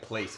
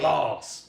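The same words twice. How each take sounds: First: It is pronounced like the English word. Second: It is pronounced with a French accent. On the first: The speaker calls it wrong. "It's spelled like place" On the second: The speaker calls it right. "but it's French. So you gotta say"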